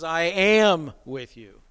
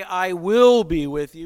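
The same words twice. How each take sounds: First: "am" slow and pressed, falling; slow, emphatic "am" in "I am with you"; stress on am. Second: Said in the usual way. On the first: Shown as a demonstration. Preacher contrasting promise, leaning on "am" slowly. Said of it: "He says". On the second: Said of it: "he doesn't just say".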